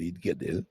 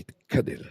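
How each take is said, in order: First: The middle consonant is a clear g. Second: The middle consonant sounds like a k. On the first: The speaker calls it right. "Il faut bien prononcer le Gimel" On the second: The speaker calls it wrong. "pour pas qu'on entende Yid Kadel"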